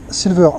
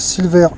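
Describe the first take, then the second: First: It is said with an English accent. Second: It is said with a French accent.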